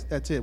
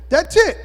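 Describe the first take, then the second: First: It is said in the speaker's normal pitch. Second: It is said in a high-pitched voice.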